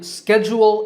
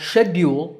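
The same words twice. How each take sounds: First: It is said in an American accent. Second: It is said in a British accent. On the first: "is the American pronunciation" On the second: "is British"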